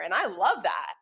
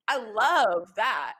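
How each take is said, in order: First: Said in the usual way. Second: Drawn out slowly; slow, savoring. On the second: Shown as a demonstration. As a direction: savor each word slowly.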